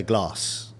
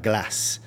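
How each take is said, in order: First: Glass with a long 'ah', like "glahss"; long-vowelled "glass"; southern long A. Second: Glass with a short flat 'a', as in cat; short-vowelled "glass"; northern short A. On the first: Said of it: "she'll say glass". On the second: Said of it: "she won't say, like". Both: Shown as a demonstration.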